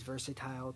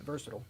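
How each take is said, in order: First: The word is stretched with extended syllables. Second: The word is said with its usual syllables. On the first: "I say it as versatile to extend the syllables" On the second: "It's called Versatile"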